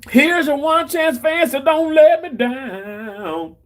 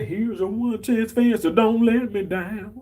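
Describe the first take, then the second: First: Quoting it up high and slow; high, slow sing-song take. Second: Said in the usual way. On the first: Retold or imitated. Reading a chat line in a high, stretched sing-song. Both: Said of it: "I said".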